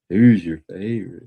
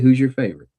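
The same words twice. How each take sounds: First: It is said in a suggestive, flirty way. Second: It is said in a plain, neutral way.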